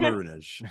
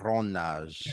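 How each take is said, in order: First: The word is pronounced in a plain English style. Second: The word is pronounced in a Spanish-like style. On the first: "I tend to say"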